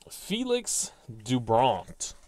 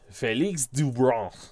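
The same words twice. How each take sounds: First: The name is said in a plain English accent. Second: The name is said in a put-on French accent.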